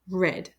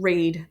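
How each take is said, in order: First: The word sounds like 'red'. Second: The word does not sound like 'red'. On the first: It is the past tense. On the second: It is the present tense.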